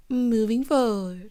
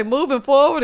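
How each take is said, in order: First: Said in the usual way. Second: "moving forward" said louder and higher, breaking up with laughter; laughing through words. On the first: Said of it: "Let's try this again". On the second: Real, not acted. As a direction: try to say "moving forward" while cracking up. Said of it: "I was laughing so hard".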